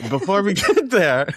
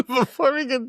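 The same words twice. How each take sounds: First: Higher and louder, breaking into laughter; can't get through it without laughing; laugh-broken line. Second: Much higher, giggling through the retry; giggly retry; laughing. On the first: Laughs mid-phrase. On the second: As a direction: try again and still crack up. Retries the phrase, still laughing. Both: Real, not acted.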